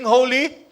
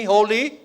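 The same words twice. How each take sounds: First: Holy with more feeling, lifted high. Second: Said in the usual way. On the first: Shown as a demonstration. Preacher leading the crowd to say holy with feeling. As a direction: give holy real feeling. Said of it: "Say it with feeling". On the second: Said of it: "say it with me".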